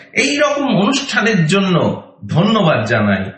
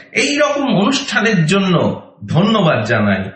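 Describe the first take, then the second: The two takes are said the same way.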